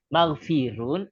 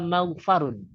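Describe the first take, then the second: First: The vowel after the f is i. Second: The vowel after the f is a. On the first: The speaker calls it right. "dibaca kasrah" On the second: The speaker calls it wrong. "dibaca fathah"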